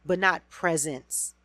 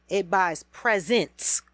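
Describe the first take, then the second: First: "presents" said slowly like presence, with the weight on "not"; "presents" sounded as presence, with "not" stressed; presence meaning. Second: "presents" said PRE-sents, slow and stressed, meaning gifts; "presents" stressed on its first syllable, as in gifts. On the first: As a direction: lean on "not" and make "presents" mean presence. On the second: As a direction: slowly land on "presents" as gifts. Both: Shown as a demonstration. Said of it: "my emphasis on the presents and presents".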